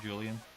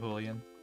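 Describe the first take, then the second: First: The J is a plain English j sound. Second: The J is a throaty h-like sound.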